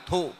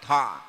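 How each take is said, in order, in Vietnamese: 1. Từ này kết thúc bằng nguyên âm 'u'. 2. Từ này kết thúc bằng nguyên âm 'o'. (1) "người miền Bắc thì gọi là thụ" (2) "ở miền Nam ta gọi cái từ thọ"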